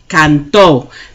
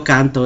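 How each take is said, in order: First: The stress is on the last syllable. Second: The stress is on the first syllable. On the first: She sang. "It's all about how you say it ... With that accent mark, it changes to she sang" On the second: I sing. "present tense, I'm going to say yo canto"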